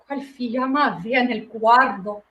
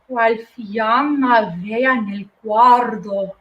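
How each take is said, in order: First: The line is spoken at a faster pace. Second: The line is spoken very slowly.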